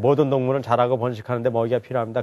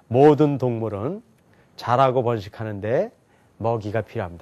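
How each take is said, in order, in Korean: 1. 이 문장은 끊김 없이 쭉 읽습니다. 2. 이 문장은 덩어리마다 쉬면서 읽습니다. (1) "옛날에는 그냥 읽었어요" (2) "끊어서 읽는 거 알죠?"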